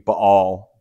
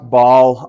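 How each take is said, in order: First: The word has a glottal stop in the middle. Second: The word is said smoothly without a glottal stop. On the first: "So in the original, it would be Baal" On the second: "Sometimes I've heard this pronounced Baal"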